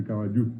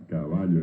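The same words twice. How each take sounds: First: "caballo" stressed at the end, ca-ba-LLU, final o as u; Guaraní stress on last syllable. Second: "caballo" stressed on the middle syllable, ca-BA-llo; Spanish stress on second A. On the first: Teacher shows Guaraní form to class: "caballo" stressed ca-ba-LLU. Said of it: "En guaraní pasa a ser". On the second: Teacher shows Spanish stress to class: "caballo" as ca-BA-llo. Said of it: "el acento está en la segunda A". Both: Shown as a demonstration.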